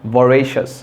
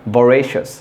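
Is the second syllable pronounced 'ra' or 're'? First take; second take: re; re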